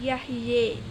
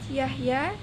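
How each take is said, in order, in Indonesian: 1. Vokal akhirnya bergeser ke arah e. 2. Vokal akhirnya adalah a terbuka biasa.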